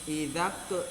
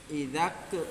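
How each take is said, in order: The two takes are said the same way.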